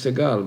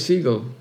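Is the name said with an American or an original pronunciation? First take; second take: original; American. First: The name has its original, non-American pronunciation. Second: The name has an Americanized pronunciation. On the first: This is how the name is pronounced in its origin. "the right way to pronounce my name is Segal" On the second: This is how the name became pronounced in America. "coming to America, where names are being distorted a little bit, so I became a Segal"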